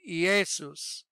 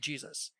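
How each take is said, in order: First: The name is said with a Greek pronunciation. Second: The name is said with an English pronunciation. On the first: "In Greek, you say Jesus" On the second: "So in English, we say Jesus"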